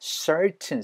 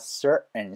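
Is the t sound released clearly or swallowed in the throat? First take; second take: released; swallowed. First: The t is clearly released before the ending. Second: The t becomes a catch in the throat.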